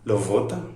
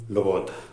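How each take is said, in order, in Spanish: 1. La b es una v con labio y dientes. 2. La b es suave, los labios se acercan sin cerrarse. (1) "Nosotros no decimos nunca lovota" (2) "decimos lobota"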